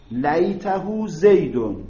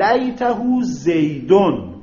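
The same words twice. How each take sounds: First: لیته زیدون drawn out slowly, each word spaced; slow repeat. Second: Said in the usual way. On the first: Shown as a demonstration. Teacher repeating the example for students, slow and deliberate.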